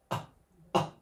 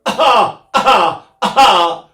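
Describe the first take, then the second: First: Tiny, soft coughed "ah"; little cough-like pulse, held right back; miniature cough. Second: Loud, high coughed "ah"s; full-blast cough. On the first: Retold or imitated. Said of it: "he did a miniature one". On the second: Shown as a demonstration. Singer showing what [name] avoided, full-blast coughed "ah". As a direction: punch out hard cough-like "ah" bursts. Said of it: "not a full blast one".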